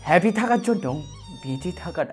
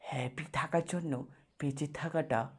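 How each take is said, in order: First: The phrase is said at a quick pace. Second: The phrase is said at a slow pace.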